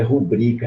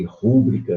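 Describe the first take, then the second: First: Rubrica stressed on BRI; penultimate stress. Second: Rúbrica stressed on the first syllable RU; common misstressing. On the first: Teacher correcting the mistake, rubrica stressed on BRI. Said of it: "é uma paroxítona e não uma proparoxítona". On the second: Teacher quoting a common mistake, rúbrica stressed on RU. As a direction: say rúbrica as RU-bri-ca. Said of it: "O pessoal muito faz aí". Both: Shown as a demonstration.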